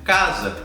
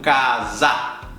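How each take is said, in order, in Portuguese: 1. A vogal final é reduzida a um schwa. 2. A vogal final é um a aberto pleno. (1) "o segundo A é um schwa, ele é um E. Vou dizer casa" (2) "Eu não digo casa"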